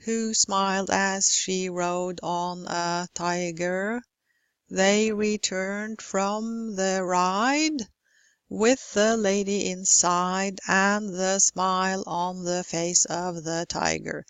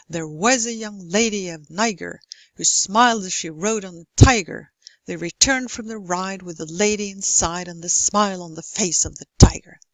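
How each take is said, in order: First: Every syllable weighted evenly and slowly in "who smiled as she rode on a tiger"; equal stress on every syllable. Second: Regular beat landing hard on "lady", "ride", "smile", "face", "tiger"; strong stress on content words. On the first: Lecturer shows students the limerick with no reduced words, evenly stressed, slow. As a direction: plod through "They returned from the ride", each syllable equally stressed, "the" and "of" included. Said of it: "I stress all syllables".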